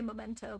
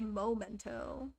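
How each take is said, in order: First: The first vowel sounds like 'eh'. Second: The first vowel sounds like 'oh'. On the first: "I just say memento because it's easier" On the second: "you could say momento"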